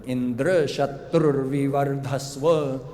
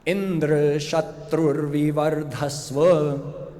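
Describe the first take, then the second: First: "Indra" stressed on DRA, its last syllable. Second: "Indra" stressed on IN, its first syllable; slow recitation, weight on the start of "Indra". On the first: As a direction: shift the weight to the end of "Indra". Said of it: "They put the emphasis on the last syllable". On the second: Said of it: "with the emphasis on the first syllable". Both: Shown as a demonstration.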